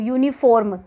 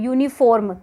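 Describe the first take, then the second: First: The r sound is pronounced strongly. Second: The same.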